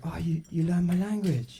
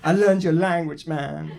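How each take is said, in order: First: Waiter's mock reply. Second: Louder, wounded mock protest; mock upset. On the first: Waiter's reply to his protest. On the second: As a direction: insist on it, comically aggrieved. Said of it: "I get upset".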